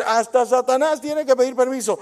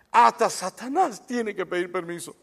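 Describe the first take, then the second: First: Repeated with more weight and push; emphatic repeat. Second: Said in the usual way. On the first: Shown as a demonstration. Pastor repeats to the church, emphatic. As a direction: drive the point home to the listeners. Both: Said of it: "Quiero decir".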